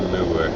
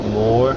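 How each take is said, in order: First: The word is said the Lancashire way. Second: The word is said like 'more'. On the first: "we in Lancashire we say moor" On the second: "some people pronounce it more"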